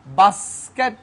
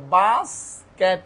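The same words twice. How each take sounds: First: Said in the usual way. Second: "basket" slowly split as bas, ket; two syllables. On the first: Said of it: "ভাঙবো, দুইটা". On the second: Shown as a demonstration. Teacher counting two syllables, "basket" split slowly. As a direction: pause between the two beats of "basket". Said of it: "দুইটা সিলাবল".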